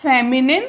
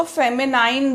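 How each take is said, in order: First: "फेमिनिन" ending in a short "निन", not "नाइन"; teacher's model of "फेमिनिन", last syllable rhyming with "bin"; correct pronunciation. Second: "फेमिनाइन" ending like the word "nine"; mistaken spelling pronunciation. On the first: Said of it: "इसको हम कैसे pronounce करेंगे". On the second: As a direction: say "फेमिनाइन" with a long "eye" sound in the last syllable. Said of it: "आपको लगेगा इसको फेमिनाइन बोलें". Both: Shown as a demonstration.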